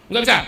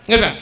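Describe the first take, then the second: No difference in how they are said.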